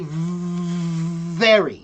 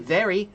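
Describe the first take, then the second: First: The V sound is drawn out long. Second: The V sound is short and quick. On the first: The speaker calls it right. "Pull it" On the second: The speaker calls it wrong. "don't just say very"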